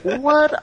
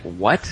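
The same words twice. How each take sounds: First: Very high, rising WHAT of disbelief; shocked what. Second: Low, rising WHAT of confusion; baffled what. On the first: Girl hears who taught him the knock, shocked. She is shocked by his answer. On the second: Boy accused of using lover's knock, baffled. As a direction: ask it puzzled, low and rising. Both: Acted.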